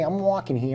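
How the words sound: It is yelled in a put-on character voice. The actor stayed in character. "it would sound like Ratso Rizzo yelling"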